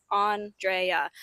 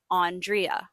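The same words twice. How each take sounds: First: Andrea as ahn-DRAY-ah, open first vowel; name said the proper way. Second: Andrea as ahn-DREE-ah, slow; other way to say the name. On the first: Host teaching listeners her name, careful ahn-DRAY-ah. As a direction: say Andrea like lawn, then DRAY-ah. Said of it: "I mean, phonetically". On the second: Host offering listeners her name's other form, slow ahn-DREE-ah. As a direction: slowly give Andrea ending in DREE-ah. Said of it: "none of that did I say Ann". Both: Shown as a demonstration.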